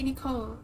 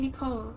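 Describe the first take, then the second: First: The name has an English pronunciation. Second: The name has an English pronunciation.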